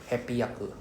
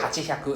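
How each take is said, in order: First: The middle has a double p sound. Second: The middle has a ch sound then h. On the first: The speaker calls it right. "It becomes a H A P P Y A K U" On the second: The speaker calls it wrong. "sounds very weird to say hachihyaku"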